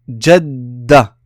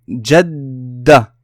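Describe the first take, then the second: First: The d sound is doubled and held. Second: The same.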